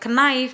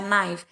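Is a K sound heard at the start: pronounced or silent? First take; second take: pronounced; silent. First: The word starts with a K sound. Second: The word starts with an N sound. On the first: The speaker calls it wrong. "bukan knife bacanya" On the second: The speaker calls it right. "nggak dibaca K-nya"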